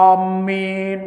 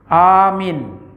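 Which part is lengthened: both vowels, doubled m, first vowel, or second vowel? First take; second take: doubled m; first vowel. First: The m sound is doubled. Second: The first vowel is long, the second short. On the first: Giving security. "Mimnya tasdik" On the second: Be faithful, you. "A-nya panjang, mimnya pendek"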